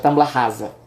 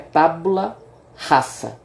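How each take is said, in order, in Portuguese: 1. O s em rasa soa como z. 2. O s em rasa soa como s. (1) "que a gente diria normalmente" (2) "o S ele tem a pronúncia de, de S, não, não tem Z"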